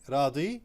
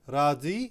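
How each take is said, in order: The two takes are said the same way.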